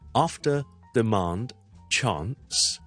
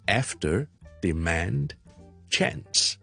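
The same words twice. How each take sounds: First: They are said with a British English accent. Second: They are said with an American English accent. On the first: "So British English" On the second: "American English"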